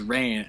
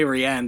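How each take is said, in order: First: The name is pronounced as Rain. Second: The name is pronounced as Rian. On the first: This is how the name is written to be read. The speaker calls it right. "that says Rain" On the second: This is how the name was misread. The speaker calls it wrong. "he says Rian"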